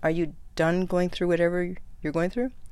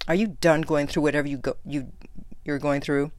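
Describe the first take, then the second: First: It is said in a nice, gentle tone. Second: It is said in a harsh, mocking tone.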